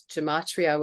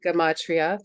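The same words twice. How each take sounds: First: Gematria with a soft J sound at the start; soft-g pronunciation. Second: Gematria repeated with a hard G; hard-g pronunciation. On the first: Real, not acted. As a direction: say gematria as "juh-MAH-tree-uh". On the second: Shown as a demonstration. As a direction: echo the corrected Gematria, "guh-MAH-tree-uh". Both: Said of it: "Sometimes pronounced gematria as well".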